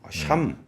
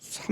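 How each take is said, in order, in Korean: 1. 이 이름은 sh 소리로 시작해요. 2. 이 이름은 평범한 s 소리로 시작해요. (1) "샴이라고 좀 해달라니까" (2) "삼 퍼센트로 하지 말고"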